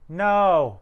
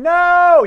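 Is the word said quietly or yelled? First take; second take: quietly; yelled. First: The word is said quietly, without yelling. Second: The word is yelled loudly. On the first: The dubbed line does not match the character's emotion. The speaker calls it wrong. "you mean like this delivery of" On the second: The line matches the character's emotion. The speaker calls it right. "You're supposed to be yelling"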